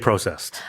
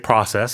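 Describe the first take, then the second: First: It is said with a Canadian pronunciation. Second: It is said with an American pronunciation. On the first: "Canadians will say processed food" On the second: "Americans will say processed"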